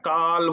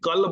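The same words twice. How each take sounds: First: The vowel is drawn out and lengthened. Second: The vowel is said short and clipped. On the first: The metre of the line is kept. The speaker calls it right. "ওটাকে কাল বলে টানতে হবে" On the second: The metre of the line breaks. The speaker calls it wrong. "আপনি যদি কাল বলেন তাহলে মাত্রা কিন্তু ভেঙে যাবে"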